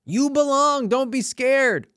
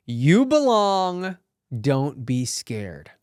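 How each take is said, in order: First: Much higher and louder, rallying; excited cheer. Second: Slow, earnest and reassuring; slow reassurance. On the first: Urging fellow actors not to be scared, a high loud rallying cheer. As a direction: cheer it out like a pep talk. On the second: Telling fellow actors they belong, said slowly and reassuringly. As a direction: lay it down slowly like a promise. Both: Shown as a demonstration. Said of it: "very important lesson in it".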